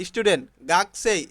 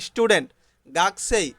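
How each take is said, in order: Both takes have the same delivery.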